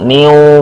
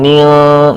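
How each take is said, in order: First: The syllable ends in a vowel sound. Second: The syllable ends in an l sound. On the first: "niu, bukan" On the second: "bukan nil"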